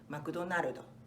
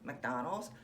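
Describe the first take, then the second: First: It is said with Japanese katakana pronunciation. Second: It is said with English pronunciation. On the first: "but how they come out so different" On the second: "they're supposed to be the same words"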